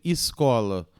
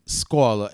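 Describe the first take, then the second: First: Escola with "is" at the front, "iscola"; usual initial vowel. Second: Escola without its first vowel, "scola"; bare initial S. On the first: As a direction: say escola loudly with a clear vowel before the S. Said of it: "É sempre escola". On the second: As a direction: start escola straight on the hiss of S, loudly. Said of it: "nada começa assim". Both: Shown as a demonstration.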